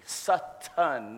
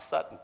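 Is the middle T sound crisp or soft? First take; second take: crisp; soft. First: The middle T is fully and strongly pronounced. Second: The middle T is softened or swallowed. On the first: The speaker calls it right. "with a heavy T" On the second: The speaker calls it wrong. "not Sutton"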